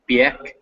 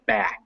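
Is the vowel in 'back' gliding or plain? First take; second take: gliding; plain. First: The vowel glides like an ie sound. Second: The vowel is a plain short a. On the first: The speaker calls it wrong. "it was still kind of like biek" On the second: The speaker calls it right. "make sure that's back"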